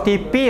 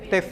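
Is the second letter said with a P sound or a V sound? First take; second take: P sound; V sound. First: The second letter is said with a P sound. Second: The second letter is said with a V sound. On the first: This follows a Malay-influenced pronunciation. The speaker calls it wrong. "Kalau T P ya bahasa Melayu tuh ya" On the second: This follows the standard Indonesian pronunciation. The speaker calls it right. "Tapi kalau Indonesia adalah T, T V seharusnya"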